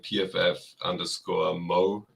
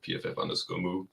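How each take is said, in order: First: The last word does not sound like 'moo'. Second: The last word sounds like 'moo'. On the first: This is the owner's own way of saying it. "So I'm I'm P F F underscore Mo" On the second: This is how some other people say it. "Some people uh, pronounce it"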